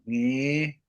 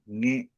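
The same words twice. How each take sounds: First: The vowel is held a little longer. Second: The vowel is cut short abruptly. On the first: "Like a little bit longer" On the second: "Cut it"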